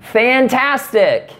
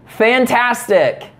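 First: Slow, much higher "Fantastic" dripping with sarcasm; sarcastic girlfriend's brush-off. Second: Slow, higher "Fantastic" with a fake smile; sarcastic fantastic. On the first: Pretend. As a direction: drag out "Fantastic" high and slow, clearly fake. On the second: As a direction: drag out "Fantastic" high and slow, icy. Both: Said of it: "You see, you can't do it".

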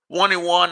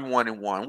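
First: A bit higher, upbeat count; hopeful. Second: Said in the usual way. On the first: Retold or imitated. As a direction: still hopeful at one and one. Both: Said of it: "that's like, All right".

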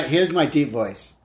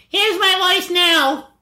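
First: Slow, drawn-out attempt at a deep voice; put-on low, slow voice. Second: Very high, slow, drawn-out silly voice; put-on squeaky high voice; silly changed voice. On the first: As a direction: try on a deep voice, unhurried. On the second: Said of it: "let me hear your voice change". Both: Shown as a demonstration.

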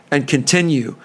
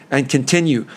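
The two takes are said the same way.

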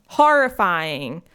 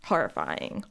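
First: Horrifying said louder and slower with a rise; stressed horrifying. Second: Said in the usual way. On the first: Shown as a demonstration. Repeating Horrifying louder and slower for emphasis. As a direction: lean into Horrifying, drawn out. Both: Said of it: "repeated horrifying".

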